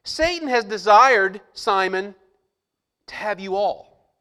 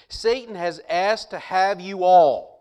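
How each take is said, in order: First: Slow, louder, aimed at Simon; pointed and loud. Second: Slow, with "all" drawn out; stress on all. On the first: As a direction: say it straight at Simon. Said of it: "then he looks at Simon and says". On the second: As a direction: land hard on "all". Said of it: "He's talking to all of them". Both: Shown as a demonstration.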